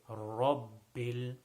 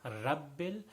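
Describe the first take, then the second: First: The R is said heavy with a full mouth. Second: The R is said light with a thin mouth. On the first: The speaker calls it right. "So you say rabbil" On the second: The speaker calls it wrong. "that is incorrect"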